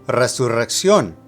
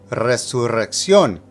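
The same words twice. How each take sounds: First: The word is said at a faster pace. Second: The word is said at a slower pace.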